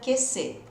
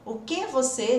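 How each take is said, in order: First: The words are squeezed into two short syllables. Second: All three words are said fully and distinctly. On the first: "Virou duas letrinhas" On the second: "na forma escrita"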